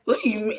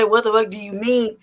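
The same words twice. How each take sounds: First: Restrained challenge. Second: Mildly indignant retort, fuller voice; unfiltered challenge. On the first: Customer taken aback by the waitress, restrained challenge. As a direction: hold back the stronger words, voice raised little. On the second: Customer's unspoken reply to the waitress, unfiltered challenge. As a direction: let the held-back challenge out, only mildly heated. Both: Retold or imitated. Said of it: "I was about to just say".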